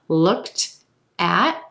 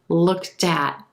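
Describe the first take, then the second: First: The words are said separately, without linking. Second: The final T links onto the following word.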